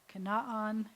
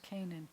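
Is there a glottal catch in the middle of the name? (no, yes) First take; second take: yes; no. First: A glottal catch splits the middle vowels. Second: The middle runs smoothly without a glottal catch. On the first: This is the original form of the name. The speaker calls it right. "you have a silent or a voice glottal stop, ayin" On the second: This is the usual English form of the name. The speaker calls it wrong. "it's a bad transliteration"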